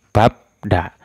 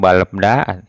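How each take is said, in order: First: The first syllable ends with a B sound. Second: Both an L and a B sound are heard. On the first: The speaker calls it right. "dibacanya itu babda" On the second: The speaker calls it wrong. "Tidak balda atau balebda"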